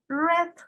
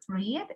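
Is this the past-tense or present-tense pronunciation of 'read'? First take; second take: past tense; present tense. First: It uses the past-tense pronunciation. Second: It uses the present-tense pronunciation. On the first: It names the verb in the past. "es read. Se escribe igual, pero se pronuncia diferente" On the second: It names the verb in the present. "El pasado de read"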